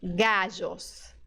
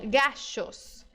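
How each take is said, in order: First: The middle consonant sounds like s in measure. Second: The middle consonant sounds like English sh. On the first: "O segundo som é o som J" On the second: "é do S H do shopping"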